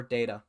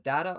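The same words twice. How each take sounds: First: "data" as DAY-tuh, long ay vowel; DAY-ta pronunciation. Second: "data" as DAH-tuh, open first vowel; DAH-ta pronunciation. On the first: Host polling commenters on the second option, "data" as DAY-tuh. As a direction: say the first syllable of "data" like day. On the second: Host polling commenters on the first option, "data" as DAH-tuh. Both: Shown as a demonstration. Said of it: "How do you say it?".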